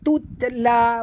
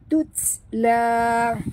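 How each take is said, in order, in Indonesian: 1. T itu dilepas dengan pantulan yang bergema. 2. T itu dilepas dengan hembusan napas yang lembut. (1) "bukan tutla, bukan tuta ya, itu dah jadi kalqalah" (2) "huruf ta bila dia mati sahabat, jaga hamasnya"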